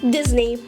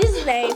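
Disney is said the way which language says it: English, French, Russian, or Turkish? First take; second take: English; Turkish. First: The name is said with an English pronunciation. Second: The name is said with a Turkish pronunciation. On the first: "İngilizce" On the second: "Türkçe"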